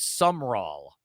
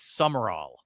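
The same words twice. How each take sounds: First: Summerall said as it reads on paper; pronounced as spelled. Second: Summerall said as "some-are-all"; corrected pronunciation. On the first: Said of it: "It, it reads as Summerall, but it's not". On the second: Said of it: "but it's not. It's Summerall". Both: Shown as a demonstration.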